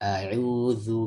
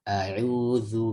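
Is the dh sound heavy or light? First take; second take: light; light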